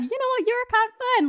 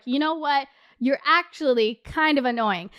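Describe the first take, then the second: First: High-pitched, playful approval; charmed at first. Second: Retold annoyance in an everyday pitch; fed-up. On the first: Retold or imitated. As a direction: give him a light, high-voiced thumbs-up. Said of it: "And at first I was like". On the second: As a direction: tell him off, voice kept down. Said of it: "after a couple times of him interrupting".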